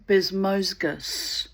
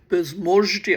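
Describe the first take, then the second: First: The name is said plainly, without the odd inflection. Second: The name has an odd Russian or Turkish-sounding inflection. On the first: The speaker calls it right. "it sounds good when you get it right" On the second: The speaker calls it wrong. "some kind of weird Russian, Turkish inflection"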